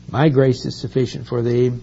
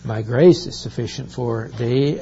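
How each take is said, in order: First: "My" stressed, a touch louder, the whole line raised. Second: Said in the usual way. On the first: Shown as a demonstration. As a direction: lean hard on "My" in "My grace". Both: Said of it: "we would emphasize the word "my".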